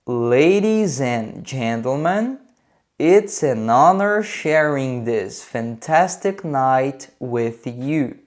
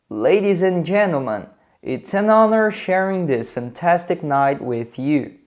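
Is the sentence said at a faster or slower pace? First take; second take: slower; faster. First: It is said at a slower, normal pace. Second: It is said at a slightly faster pace.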